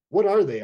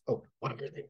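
First: Misread line. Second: Soft, hushed question; huddled on a ridge, hushing to the challenger; hushed whisper. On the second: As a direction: whisper it so the kobolds can't hear. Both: A narrator's reading. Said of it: "I whisper to the challenger".

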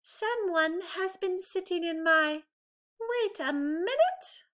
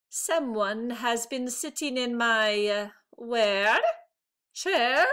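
First: Higher, puzzled mother bear voice; Mama Bear, catching herself. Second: Flat start, then a confused rising chair; a father bear losing track mid-sentence; Papa Bear, forgetting his line. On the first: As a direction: stop short as if something is odd. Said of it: "Mama Bear said". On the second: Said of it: "Papa Bear said". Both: A narrator's reading.

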